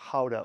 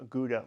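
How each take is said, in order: First: Gouda as "HOW-da"; an H opening Gouda, not a hard G; Dutch pronunciation. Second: Said in the usual way. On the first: Shown as a demonstration. Naming the town down the canal, Gouda said the Dutch way. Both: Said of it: "as the Dutch say".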